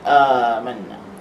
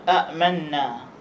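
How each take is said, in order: First: The first vowel is drawn out long. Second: A glottal stop closes the short first syllable. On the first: This is the form after the change. "diubah menjadi alif sukun, maka dipanjangkan amanna" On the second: This is the original underlying form of the word. "asal kalimah amanna ialah amanna ... kerana ada dua hamzah, satu hamzah mati"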